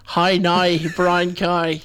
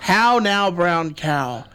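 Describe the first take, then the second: First: Northern Irish vowels, hi now brown cow; Northern Irish accent. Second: Irish lilt on how now brown cow; Irish accent. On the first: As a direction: say it like Belfast. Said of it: "if you say in Northern Irish". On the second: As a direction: say it like an Irish speaker. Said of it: "if you say in Irish". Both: Shown as a demonstration.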